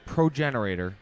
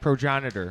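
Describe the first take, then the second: First: The word is said with an extra syllable, like 'generator'. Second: The word is said with the shorter 'genitor' ending. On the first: The speaker calls it wrong. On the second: The speaker calls it right.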